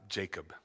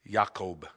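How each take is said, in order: First: The name begins with a J sound. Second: The name begins with a Y sound. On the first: The speaker calls it wrong. "not Jacob" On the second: The speaker calls it right. "No J's"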